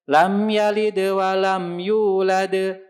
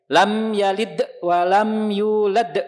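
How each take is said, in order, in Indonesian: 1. Dibaca ringan dan lancar, tanpa jeda. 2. Dibaca terputus-putus, ada jeda setelah huruf kolkolah. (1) "Ngalir ringan" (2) "Jangan dijeda-jeda"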